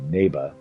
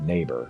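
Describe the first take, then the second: First: The final R is soft, barely pronounced. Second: The final R is pronounced hard and strong. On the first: The speaker calls it right. "I had to say neighbor" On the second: The speaker calls it wrong. "I couldn't say it with a hard R"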